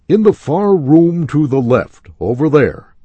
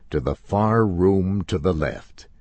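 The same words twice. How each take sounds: First: Higher and louder clerk voice; calling clerk. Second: Said in the usual way. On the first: A narrator's reading. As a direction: call the directions out across the store.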